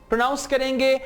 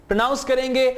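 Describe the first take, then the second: Both takes have the same delivery.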